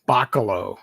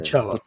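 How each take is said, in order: First: The middle syllable sounds like 'ka'. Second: The middle syllable sounds like 'sel'. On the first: The speaker calls it wrong. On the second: The speaker calls it right.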